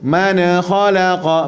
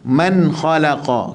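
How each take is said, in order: First: The n bounces with a small echoing release. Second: The n stops cleanly with no echoing release. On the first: The speaker calls it wrong. "Tapi jangan melantun" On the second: The speaker calls it right. "Matikan betul-betul tanpa lantunan, tanpa berhenti"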